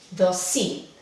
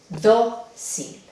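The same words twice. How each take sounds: First: The stress is on the last syllable. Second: The stress is on the first syllable. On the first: The speaker calls it wrong. "la última sílaba ... No, así no se pronuncia la palabra" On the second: The speaker calls it right. "no cae el acento en el lugar natural ... Sí, ahí va"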